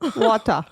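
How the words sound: It is said with a Latino-style accent. This is how the child says it. "il va dire water"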